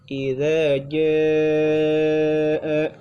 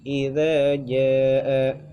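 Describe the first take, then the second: First: The vowel in jaa is held for four or more beats. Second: The vowel in jaa is held for two beats. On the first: The speaker calls it right. "harusnya dibacanya" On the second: The speaker calls it wrong. "hanya baca dua harakat yang ja-nya"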